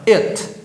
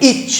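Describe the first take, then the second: First: The vowel is closed and short. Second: The vowel is open and longer. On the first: The speaker calls it right. "o som é fechado" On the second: The speaker calls it wrong. "não é it"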